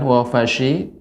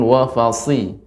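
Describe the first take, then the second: First: The consonant after 'wafa' is a sh sound. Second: The consonant after 'wafa' is an s sound. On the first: The speaker calls it wrong. "Jangan wafashi" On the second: The speaker calls it right. "namun wafasi"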